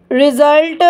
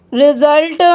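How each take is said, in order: Both takes have the same delivery.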